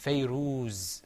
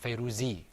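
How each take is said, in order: First: The name ends on the z, no vowel. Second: The name ends with an i vowel. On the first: The speaker calls it right. "Because it's Fayruz" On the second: The speaker calls it wrong. "or Fayruzi"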